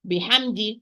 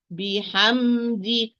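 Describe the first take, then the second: First: Rushed take. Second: بحمد drawn out, each letter given its time; slow, given its time. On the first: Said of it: "Do not run". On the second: Teacher models unhurried بحمد. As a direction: recite بحمد slowly, no rushing. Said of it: "So give it its time". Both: Shown as a demonstration.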